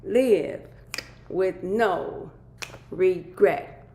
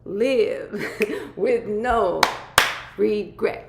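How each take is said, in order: First: Each word punched out with pauses; emphatic repetition. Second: Very slow, higher and louder, laughing through it; drawn-out laughing repeat. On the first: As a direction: hammer home the slogan, louder. Repeating the topic emphatically. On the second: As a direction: stretch the slogan out and crack up. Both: Acted.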